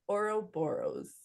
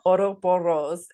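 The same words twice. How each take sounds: First: The R sounds are plain, not rolled. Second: The R sounds are strongly rolled. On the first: The speaker calls it right. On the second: The speaker calls it wrong.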